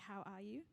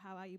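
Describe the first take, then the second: First: It is a sincere, caring question. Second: It is a quick, throwaway greeting.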